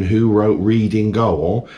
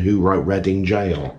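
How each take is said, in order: First: "Goal" said as goal, like the football word; "Reading Goal" with "Goal" pronounced goal, not jail; misread word. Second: "Jail" said as jail, the proper word; "Reading Jail" with "Jail" pronounced jail; correct reading. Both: Retold or imitated. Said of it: "the question should have been".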